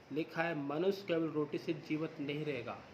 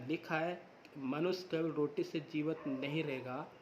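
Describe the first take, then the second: The two takes are said the same way.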